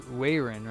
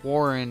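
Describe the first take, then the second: First: The first syllable sounds like 'way'. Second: The first syllable sounds like 'war'. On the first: The speaker calls it right. "I think it's Way, Wayron, right?" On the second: The speaker calls it wrong. "It's not Warren"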